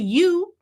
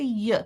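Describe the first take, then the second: First: The vowel is a full oo sound. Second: The vowel is reduced to a short uh.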